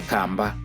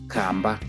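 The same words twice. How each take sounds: No difference in how they are said.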